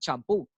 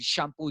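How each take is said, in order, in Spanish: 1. La palabra empieza con un sonido 'ch' fuerte. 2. La palabra empieza con un sonido 'sh' suave. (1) "dicen champú" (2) "en vez de decir shampoo"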